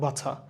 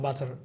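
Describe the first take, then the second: First: It is said without the final r sound. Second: It is said with the final r sound. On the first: "British accent follow করি তখন আমাদের বাছা" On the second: "American ইংলিশে বাটার"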